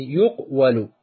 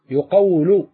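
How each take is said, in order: First: يقول said "yuq-walu", q closed before wa; underlying passive form. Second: يقول said slowly as "yu-qaw-lu"; vowel shifted back. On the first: Teacher applies the rule for students, split "yuq-walu". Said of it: "ويفتح ما قبل آخره". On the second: Teacher shows the vowel transfer, slow "yu-qawlu". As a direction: move the a onto the q in يقول, drawing out qaw. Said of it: "ننقل الحركة إلى الحرف الصحيح". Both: Shown as a demonstration.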